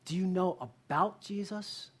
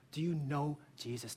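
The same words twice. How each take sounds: First: "Do you know about Jesus?" with weight on "know about"; pastor's contrast question, leaning on "know about"; stress on KNOW ABOUT. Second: "Do you know Jesus?" dropped lower and softer, weight on "you know"; pastor's pointed follow-up, intimate and falling; stress on YOU KNOW. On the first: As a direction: set up "know about" as the lesser option. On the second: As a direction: ask it personally, quieter, falling. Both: Shown as a demonstration. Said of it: "here's a very clear distinction".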